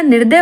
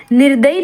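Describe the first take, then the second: First: Said in the usual way. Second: निर्दयी ending in -ayee; wrong form. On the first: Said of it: "निर्दय होगा". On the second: Shown as a demonstration. Teacher rejects a misspelling, निर्दयी ending in ee. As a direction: add long ee to निर्दयी. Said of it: "निर्दयी नहीं होता".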